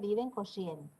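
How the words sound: The R in Corrientes is dragged and fricative. "La R arrastrada, que es común en nuestra provincia"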